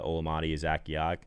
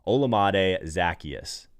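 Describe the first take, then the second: First: The name is pronounced in a garbled, mangled way. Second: The name is pronounced carefully and deliberately. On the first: The speaker calls it wrong. "I knew I was going to butcher that name" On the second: The speaker calls it right. "I literally have the pronunciation in my face right now on a notepad"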